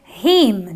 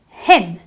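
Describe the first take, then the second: First: The vowel is a long 'ee' sound. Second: The vowel is a short 'i' sound. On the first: The speaker calls it wrong. "I don't say him, do I?" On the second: The speaker calls it right. "But I do use the short I, so I say him"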